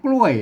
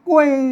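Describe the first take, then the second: First: The word has an ordinary, lower falling tone. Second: The falling tone is about half a step higher. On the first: This is the standard Thai pronunciation. "ภาษาไทยเปิ้นอ่านว่ากล้วยนะครับเสียงโทปกติ" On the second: This is the Northern Lanna pronunciation. "เสียงโทพิเศษนะครับโทเมือง... มันจะส่งกว่าโทรปกติไปแถมอ่าประมาณครึ่งเสียง"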